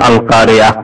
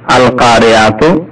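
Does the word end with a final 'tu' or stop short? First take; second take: stops short; tu ending. First: The word stops short without the 'tu' ending. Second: The word ends with a full 'tu' ending. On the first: The reciter pauses at the end of the verse. "যখন থামবেন বলুন আল কারিয়া" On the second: The reciter does not stop after this word. "আল কারিয়াতু আসলে"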